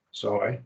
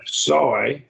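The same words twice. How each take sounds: First: Said in the usual way. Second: SOY stressed and drawn out; emphatic form. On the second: Shown as a demonstration. Teacher distinguishing two forms, soy said emphatically. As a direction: put slow, firm weight on soy. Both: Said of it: "I try to make a distinction".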